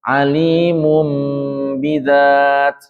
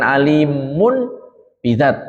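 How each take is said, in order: First: The n turns into a nasal m before b. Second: A clear n is kept before b. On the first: The speaker calls it right. "tapi alimum" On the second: The speaker calls it wrong. "bukan alimun bidzat"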